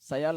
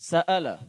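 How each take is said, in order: First: A y-glide joins the two vowels. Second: A glottal stop separates the two vowels. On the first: The speaker calls it wrong. "কেমন যেন ইয়া শোনা গিয়েছে। সায়ালা এরকম আওয়াজ আসছিল" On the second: The speaker calls it right. "হামজাটা উচ্চারণ হয়নি"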